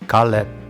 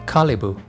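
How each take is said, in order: First: It is pronounced the Korean way. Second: It is pronounced the Arabic way. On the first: "with g sound Caleb in Korean" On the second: "with a and e sound Kalibu in Arabic"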